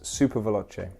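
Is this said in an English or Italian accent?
English. It is said in a plain English accent.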